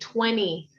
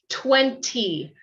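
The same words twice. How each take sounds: First: The middle T is left out. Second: The middle T is pronounced strongly. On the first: "we often omit the T, we take out the T" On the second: "he has a strong T sound"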